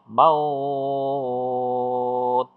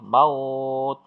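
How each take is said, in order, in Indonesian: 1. Dibaca enam harakat. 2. Dibaca empat harakat.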